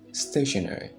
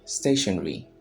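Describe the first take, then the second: First: It is said with an American pronunciation. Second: It is said with a British pronunciation. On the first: "The Americans will call it stationary" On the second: "the British will say stationery"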